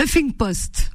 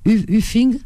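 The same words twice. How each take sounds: First: Huffing Post with a clear English H, a bit higher; corrected pronunciation. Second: Uffing said with no H, as a hesitant question; unsure pronunciation. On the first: Host corrects herself on the English title, Huffing Post carefully. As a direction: land Huffing Post properly after fumbling it. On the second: Host asks a colleague how to say Uffing, hesitant. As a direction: try Uffing tentatively, rising at the end like you're checking. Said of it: "comment, comment, tu, tu sais le dire, toi?". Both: Real, not acted.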